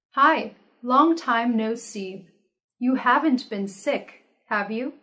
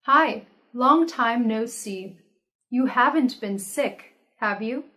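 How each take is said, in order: Both takes have the same delivery.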